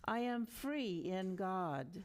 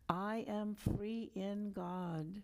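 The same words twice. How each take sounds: First: It is said with much energy. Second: It is said in a normal voice.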